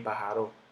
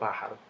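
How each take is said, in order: First: The stress falls on a later syllable. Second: The stress falls on the first syllable. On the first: The speaker calls it wrong. "ni pájaro" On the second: The speaker calls it right. "Yo digo pájaro. El golpe está en la pa"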